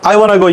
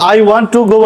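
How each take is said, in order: First: 'Want to' is blended into 'wanna'. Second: 'Want to' is said as two full words. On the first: "I ওয়ান্ট টু go না বলে বলবে I ওয়ানা go" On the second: "I ওয়ান্ট টু go বললেও হবে"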